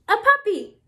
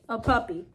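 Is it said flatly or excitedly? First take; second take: excitedly; flatly. First: It is said with excitement. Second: It is said flatly, without excitement.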